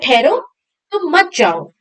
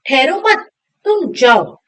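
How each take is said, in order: First: The pause comes right after ठहरो. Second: The pause comes right after मत.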